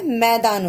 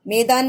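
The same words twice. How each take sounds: First: मैदान said with the open ai sound, मै-दान; correct vowel. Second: मैदान said with a closed e, like मेदान; wrong vowel. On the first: Teacher repeating the right reading for kids, open ai. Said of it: "मैदान होता है". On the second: Teacher repeating the wrong reading for kids, closed e. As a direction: say मैदान with a short e, the mistaken way. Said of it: "मैदान नहीं होता है". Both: Shown as a demonstration.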